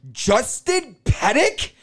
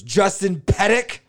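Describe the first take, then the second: First: High, slow, sing-song call of a name. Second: High, slow, rising call of a name. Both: Retold or imitated. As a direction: call out "Justin Pettick?" high, drawn out and rising. Ex calls his name at counter.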